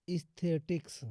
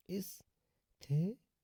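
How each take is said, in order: First: Said in the usual way. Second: "एस्थेटिक्स" slowly in pieces, with pauses between; broken into syllables. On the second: Shown as a demonstration. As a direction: split "एस्थेटिक्स" into parts, last part rising. Teacher breaks word up for learners.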